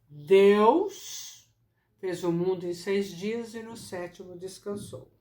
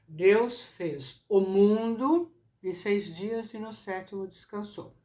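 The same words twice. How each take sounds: First: The word Deus carries the main emphasis. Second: The word mundo carries the main emphasis. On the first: The focus is on the one who created. "Se o que eu quero dar relevo é a ideia de Criador" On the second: The focus is on what was created. "Se eu quero pôr em relevo a ideia da criação, o que ele criou"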